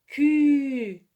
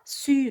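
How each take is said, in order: First: The syllable begins with a K sound. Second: The syllable begins with an S sound. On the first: The speaker calls it right. "Elle se prononce Q" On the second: The speaker calls it wrong. "Elle ne se prononce pas su"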